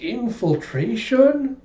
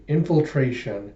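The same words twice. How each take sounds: First: Put-on high, drawn-out childlike question; awed echo. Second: Said in the usual way. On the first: Small girl echoes the new game's name, high awe. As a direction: stretch the word in kid-like wonder. Anya echoes him in wonder.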